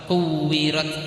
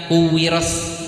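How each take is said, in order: First: The word ends with a crisp t sound. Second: The word ends with a hissing s sound. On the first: The speaker calls it right. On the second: The speaker calls it wrong. "bukan kuwiros ya, salah"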